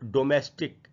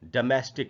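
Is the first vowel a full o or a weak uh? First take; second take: full o; weak uh. First: The first vowel is a full o sound. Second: The first vowel is a weak uh sound. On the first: The speaker calls it wrong. "ये गलत उच्चारण है" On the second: The speaker calls it right. "ड के बाद मैं है और फिर स्टिक"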